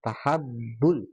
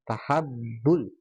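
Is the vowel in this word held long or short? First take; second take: short; short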